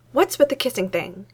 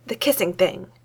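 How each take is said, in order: First: Demanding. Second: Impatient. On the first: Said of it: "she demanded". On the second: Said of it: "she said impatiently". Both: Acted.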